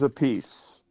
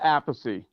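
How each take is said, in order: First: The name ends in a 'peace' sound. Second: The name ends in a 'thee' sound. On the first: This is a changed version adopted later. "he pronounced it a piece" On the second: This is the family's traditional pronunciation. "it's always pronounced Apathy. That's the way my father pronounced it"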